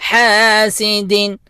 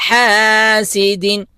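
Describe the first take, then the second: The two takes are said the same way.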